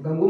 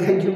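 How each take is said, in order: First: The word ends with a plain 'goo' sound. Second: The word ends with a 'gyoo' sound. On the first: The speaker calls it wrong. "गंगू म्हणायचं नाही फक्त" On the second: The speaker calls it right. "मी त्याला गँग्यू म्हणतोय"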